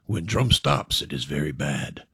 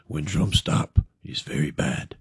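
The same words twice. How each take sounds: First: Low, hushed voice of doom; ominous warning. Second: Low, breathy whisper of doom; whispered omen. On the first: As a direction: murmur it like a dark omen. Bar stranger's ominous warning. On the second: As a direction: hiss the warning like a secret. Second stranger repeats warning. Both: Acted.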